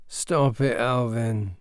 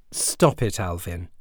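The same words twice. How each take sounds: First: Mumbled half asleep; boy mumbles to stepbrother while asleep; sleepy mumble. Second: Said in the usual way. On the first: Acted. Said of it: "he mumbled". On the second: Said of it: "his mum said".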